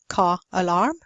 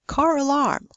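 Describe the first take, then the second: First: No R sound links the two words. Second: An R sound links the two words. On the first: The speaker calls it wrong. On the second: The speaker calls it right. "they put in an R"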